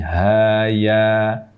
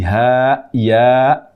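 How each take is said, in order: First: Each letter name ends in an open vowel. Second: Each letter name ends in a glottal stop. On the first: The speaker calls it right. "tidak diakhir dengan hamzah" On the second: The speaker calls it wrong. "dengan akhiran hamzah"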